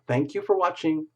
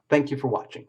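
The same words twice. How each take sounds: First: It is said in a warm, polite tone. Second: It is said in a curt, offhand tone. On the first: The speaker calls it right. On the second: The speaker calls it wrong.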